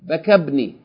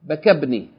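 First: The vowel after the k is cut short. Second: The same.

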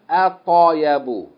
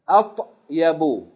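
First: The consonant is said with a short a vowel. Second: The consonant is said without a following vowel. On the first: The speaker calls it wrong. "it should not be with a fatta" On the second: The speaker calls it right. "it should be at-yabu"

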